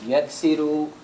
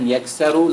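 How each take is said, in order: First: The vowel after the s is 'i'. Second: The vowel after the s is 'a'. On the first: The speaker calls it right. "So it has a kasra" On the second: The speaker calls it wrong. "instead of saying yaksaru like yaf'alu"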